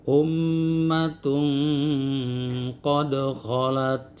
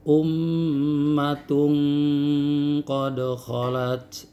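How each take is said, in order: No difference in how they are said.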